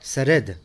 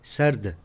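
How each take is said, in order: First: An extra vowel separates the final consonants. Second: The final consonants are joined without a vowel. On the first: The speaker calls it wrong. "ये भी सही नहीं है" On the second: The speaker calls it right. "सही तलफ़्फ़ुज़ है"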